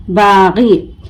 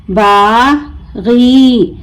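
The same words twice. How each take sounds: First: Said in the usual way. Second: बागी very slow, long बा, pause, long गी; broken into syllables. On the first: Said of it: "मिलाकर पढ़ें". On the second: Shown as a demonstration. Teacher breaking the word for learners, बा... गी stretched apart. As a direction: draw out बागी as two separate syllables. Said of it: "तोड़ तोड़ कर पढ़ूंगी".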